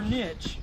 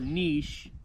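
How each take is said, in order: First: The word ends with a 'tch' sound. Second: The word ends with a soft 'sh' sound.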